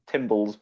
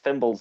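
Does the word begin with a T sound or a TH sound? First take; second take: T; TH. First: The word begins with a hard t sound. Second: The word begins with a soft th sound. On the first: The speaker calls it wrong. "not timbles" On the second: The speaker calls it right. "they're pronounced thimbles"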